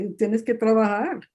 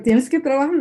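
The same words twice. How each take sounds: First: Said in the usual way. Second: Raised, louder mock mother's command; imitating her mother. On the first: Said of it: "her value was be a trabajadora". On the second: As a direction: echo mom's order a bit higher and louder. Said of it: "It's like".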